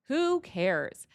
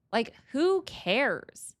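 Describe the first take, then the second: First: Said in the usual way. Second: Slow, loud, stretched "who cares"; drawn-out who cares. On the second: Real, not acted. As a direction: drag out "who" in disbelief. Exasperated rant at coworker snitches.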